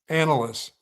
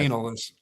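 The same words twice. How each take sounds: First: The first syllable sounds like the name Ann. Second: The first syllable does not sound like Ann. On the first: The speaker calls it right. "Like Ann" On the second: The speaker calls it wrong.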